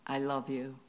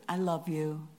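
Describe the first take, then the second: First: It is said flatly, without feeling. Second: It is said with warm, expressive tone.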